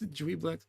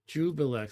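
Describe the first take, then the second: First: The name begins with a 'dwee' sound. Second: The name begins with a 'joo' sound. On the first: The speaker calls it right. "It's Dweeblex" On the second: The speaker calls it wrong. "but it's not Jubilex"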